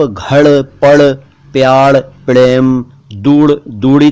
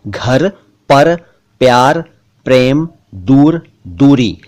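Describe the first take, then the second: First: घड़, पड़, प्यार, प्रेम, दूर, दूरी with every r made a retroflex flap ड़; wrong ड़ for र. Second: घर, पर, प्यार, प्रेम, दूर, दूरी with trilled r; correct rolled र. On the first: Teacher showing the mistake, ड़ for र in घड़, पड़, प्यार, प्रेम, दूर, दूरी. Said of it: "तो नहीं पढ़ेंगे ना". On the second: Teacher giving the correction, trilled r in घर, पर, प्यार, प्रेम, दूर, दूरी. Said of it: "इनका सही उच्चारण तो". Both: Shown as a demonstration.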